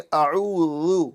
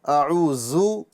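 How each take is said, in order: First: The consonant is a soft dh, tongue at teeth. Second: The consonant is a plain buzzing z sound. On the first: The speaker calls it right. "बल्कि अऊज़ु" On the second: The speaker calls it wrong. "अऊज़ु नहीं पढ़ना है"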